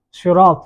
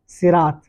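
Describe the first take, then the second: First: شراط with a heavy, emphatic Arabic saad at the start; heavy saad pronunciation. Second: صراط with a plain, light s like seen; light seen pronunciation. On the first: Teacher demonstrating one of two readings, شراط with heavy saad. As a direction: say شراط louder, its first consonant thick and dark. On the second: Teacher demonstrating the other reading, صراط with light seen. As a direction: begin صراط on a thin, unemphatic s sound. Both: Shown as a demonstration. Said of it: "یہ لفظ یا تو اس طرح پڑھا جائے گا، سین یا صاد".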